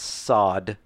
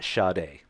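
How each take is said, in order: First: The name sounds like the word 'sod'. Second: The name does not sound like 'sod'. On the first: The speaker calls it right. "it is pronounced sod" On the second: The speaker calls it wrong. "Not Sade"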